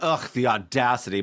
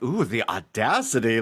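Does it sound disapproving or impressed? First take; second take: disapproving; impressed. First: It sounds disgusted and disapproving. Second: It sounds delighted and impressed.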